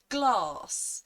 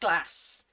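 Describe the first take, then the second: First: A southern English accent with a long A. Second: A northern English accent with a short A.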